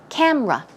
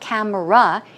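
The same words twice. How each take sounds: First: The word is said with two syllables. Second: The word is said with three syllables. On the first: The speaker calls it right. "it's rather two syllables, so it's camera" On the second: The speaker calls it wrong. "it's not camera"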